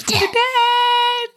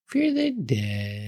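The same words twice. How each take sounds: First: High drawn-out ghostly wail; high spooky wail. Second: Slow hushed spooky chant; spooky intro voice. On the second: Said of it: "Now it's time". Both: Pretend.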